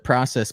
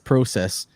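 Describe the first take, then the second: First: It is said in a plain American accent. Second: It is said in a Canadian accent.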